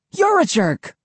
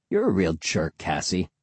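First: Shouting back. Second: Said in the usual way. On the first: A narrator's reading. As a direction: shout it right back at him. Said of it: "Cassie shouted back". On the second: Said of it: "Will insults Cassie".

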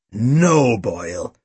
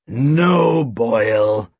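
First: Long emphatic no, falling away; exasperated police chief. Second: Drawn-out no, dropping low; tired restraint. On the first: Chief refusing Boyle's lie detector, exasperated. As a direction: stretch the no, then drop low. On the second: Chief restraining his sidekick, tiredly. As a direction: rein in the thug wearily. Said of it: "Snape shook his head tiredly". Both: A narrator's reading.

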